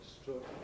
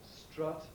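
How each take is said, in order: First: The vowel sounds like the vowel in good. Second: The vowel is a stressed schwa. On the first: "a vowel like the uh of good" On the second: "you get a stressed schwa, thus"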